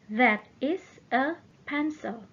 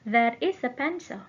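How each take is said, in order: First: The sentence is said at a slower pace. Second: The sentence is said at a faster pace.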